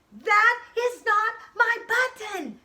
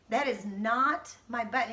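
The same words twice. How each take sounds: First: Loud, high, slow angry shout; shouted angry protest. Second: Said in the usual way. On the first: Acted. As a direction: yell it out in anger. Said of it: "shouted Frog". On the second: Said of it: "and he shouted".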